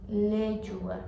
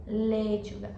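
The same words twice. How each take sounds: The two takes are said the same way.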